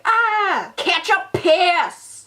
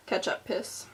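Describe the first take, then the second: First: High, loud, stretched-out shriek; hammed-up high yelp, dragged slow; mock shriek. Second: Whispered band name. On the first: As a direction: squeal it like ketchup just splattered. Mock reaction to ketchup squirt. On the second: Shown as a demonstration. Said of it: "That's the name of my band".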